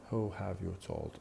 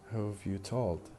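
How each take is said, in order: First: Have and you are said as separate full words. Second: Have and you merge into one weak syllable. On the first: "instead of who have you told" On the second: "we tend to combine them in a single weak syllable"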